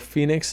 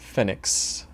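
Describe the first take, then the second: First: The name is pronounced the English way. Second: The name is pronounced the Spanish way. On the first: This is how Americans would say it. "or Phoenix as us Americans would like to call it" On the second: This is how locals in Argentina might say it. "Maybe in Argentina they call it Phoenix"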